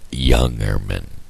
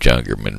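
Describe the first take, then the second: First: The name begins with a Y sound. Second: The name begins with a J sound. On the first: The speaker calls it right. "The pronunciation of Jungerman Road is Youngerman" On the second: The speaker calls it wrong. "It's spelt with a J, and that throws me off all the time"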